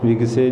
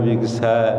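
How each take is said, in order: First: The final vowel is a plain 'e' sound. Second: The final vowel is an 'ai' sound. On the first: The speaker calls it wrong. "विगसे नहीं कहना" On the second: The speaker calls it right. "दलावां दे नाल उच्चारण करना है"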